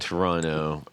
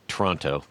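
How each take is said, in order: First: The second T is dropped. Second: The second T is clearly pronounced. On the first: The speaker sounds like a local. The speaker calls it right. "you said it right the first time" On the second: The speaker sounds like an outsider. The speaker calls it wrong. "the second T is for tourists"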